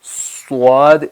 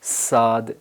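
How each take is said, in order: First: The s sound has rounded lips. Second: The s sound is thin and light. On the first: "मुंह को ऐसे गोल करते हैं वाव की तरह ... ये भी गलत है" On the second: "आवाज़ बारीक हो जाएगी, ये स्वाद नहीं बनेगा बल्कि सीन बनेगा"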